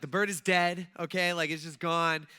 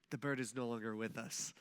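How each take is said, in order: First: Louder, blunt announcement; blunt retelling. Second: Soft, low, careful delivery; gentle tactful version. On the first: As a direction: blurt it out with no tact. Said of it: "But instead, I'm like". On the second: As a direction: break the news softly and delicately. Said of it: "what I should have said is". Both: Retold or imitated.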